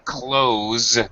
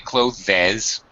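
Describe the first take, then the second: First: The word is one syllable ending in plain Z. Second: The word is said with an extra syllable. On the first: The speaker calls it right. "just say close with a Z sound" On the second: The speaker calls it wrong. "it is a one syllable word, so we cannot say clothes"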